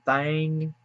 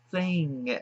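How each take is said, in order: First: Thang, with a broad a vowel; drawled country thang. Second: Said in the usual way. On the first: Shown as a demonstration. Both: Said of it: "it's thing".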